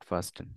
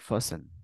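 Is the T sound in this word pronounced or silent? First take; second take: pronounced; silent. First: The T sound is clearly pronounced. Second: The T sound is silent. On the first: The speaker calls it wrong. "Not ফাস্টেন" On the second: The speaker calls it right. "এটা হচ্ছে silent একদম"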